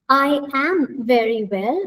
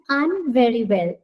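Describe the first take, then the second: First: I and am are said as two separate words. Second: I and am are joined into one word. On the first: "instead of saying I am" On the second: "we sing I'm"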